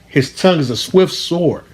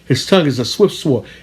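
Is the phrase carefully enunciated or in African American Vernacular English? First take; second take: enunciated; vernacular. First: It is carefully enunciated in standard English. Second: It is said in African American Vernacular English. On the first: It is said so listeners can follow the words. "I had to enunciate and pronounce it so you could understand it" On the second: It is said the way the original artist said it.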